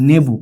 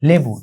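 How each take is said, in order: First: The word begins with an n sound. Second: The word begins with an l sound.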